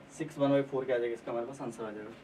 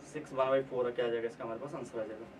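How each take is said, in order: Both takes have the same delivery.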